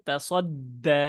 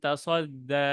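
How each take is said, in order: First: The consonants are articulated hard and heavily. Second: The consonants are articulated softly and lightly. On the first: The speaker calls it right. "শক্ত করে বলব" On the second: The speaker calls it wrong. "একদম নরম করে বললাম"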